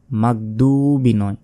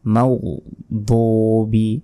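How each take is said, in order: First: মাগদুবি quick and flat with a plain g; hurried মাগদুবি; common mispronunciation. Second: মাগদুবি slow, rounded lips, heavy দ; careful মাগদুবি with rounded lips; correct tajweed. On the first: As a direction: say মাগদুবি the wrong Bengali way. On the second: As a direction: say মাগদুবি the Arabic way, drawn out. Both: Shown as a demonstration.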